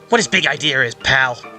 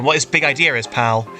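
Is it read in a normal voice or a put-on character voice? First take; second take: character voice; normal voice. First: It is read in a put-on character voice. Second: It is read in his normal voice.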